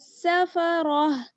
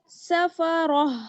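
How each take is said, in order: The two takes are said the same way.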